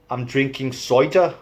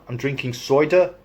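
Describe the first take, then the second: The two takes are said the same way.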